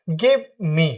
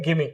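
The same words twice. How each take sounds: First: The two words are said separately. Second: The two words are joined into one. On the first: "पहले बोलते हैं ना" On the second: "दोनों को एक साथ मिला के जब हम प्रोनाउंस करते हैं"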